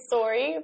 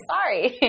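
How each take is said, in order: First: "sorry" with a rounded "or" in the first syllable; Canadian "sorry". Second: "sorry" with an open "ah" in the first syllable; American "sorry". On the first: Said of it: "we do usually say sorry". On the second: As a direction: say "sorry" as in the US, like "sah-ree". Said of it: "in the U S we usually say". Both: Shown as a demonstration.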